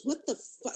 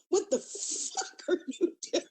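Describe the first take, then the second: First: Higher, cut-short retold disbelief; mock shock. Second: Mock appalled shock. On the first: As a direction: imitate someone startled, breaking off mid-curse. Retold shocked partner walking in. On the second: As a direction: imitate an appalled partner, stretching the curse out. Retold shocked partner's outburst.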